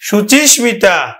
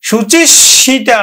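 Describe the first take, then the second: The two takes are said the same way.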